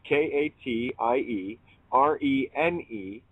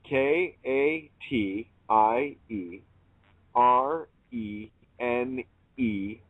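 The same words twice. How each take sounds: First: It is spelled out at normal speed. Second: It is spelled out slowly.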